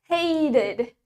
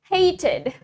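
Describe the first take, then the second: First: It is said in an American accent. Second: It is said in a British accent. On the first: "Now American" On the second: "Starting from British"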